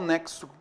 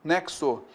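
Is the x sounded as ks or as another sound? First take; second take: ks; ks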